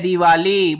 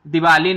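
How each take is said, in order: First: The first i vowel is long. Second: The first i vowel is short. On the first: The speaker calls it right. "बड़ी ई लगी है" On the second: The speaker calls it wrong. "दिवाली नहीं आती बेटा कभी भी"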